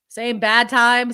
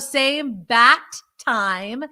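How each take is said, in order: First: The middle word ends in a d sound. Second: The middle word ends in a clear t sound. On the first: "It sounded like bad" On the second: "From Batman"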